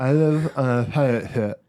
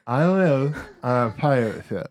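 First: Words mangled by a held tongue; holding tongue with fingers. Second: Tongue held, words slurred; holding tongue with fingers. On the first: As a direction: say it while gripping your tongue. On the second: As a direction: speak with fingers on your tongue. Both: Shown as a demonstration. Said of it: "Should I do it on air?".

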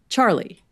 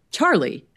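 First: Said in the usual way. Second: Puzzled Charlie with a questioning lift; confused question. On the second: Acted. Inspector hearing a new name, puzzled. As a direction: ask who on earth Charlie is. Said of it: "The inspector looked confused".

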